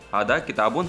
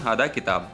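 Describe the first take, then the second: First: The last word ends with an added -un. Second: The last word ends without the -un. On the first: This is the pure written form. "ये एकदम पेवर शुद्ध अरबी है" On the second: This is the everyday spoken form. "स्पोकिंग जो बोलने वाली भाषा है"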